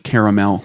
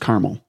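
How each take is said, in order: First: The word is said with three full syllables. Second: The word is slurred into two syllables.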